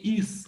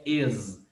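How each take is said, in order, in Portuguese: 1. A palavra termina com um S sibilante. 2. A palavra termina com um Z sonoro. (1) "não é som de is com S" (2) "Aqui o som aqui é de Z"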